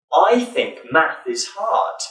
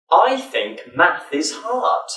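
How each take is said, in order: First: Said in the usual way. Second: Slow, careful "I think math is hard" with clear th; slow demo. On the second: Shown as a demonstration. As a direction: say "I think math is hard" slowly, stressing each th. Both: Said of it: "practice one sentence with the th sound".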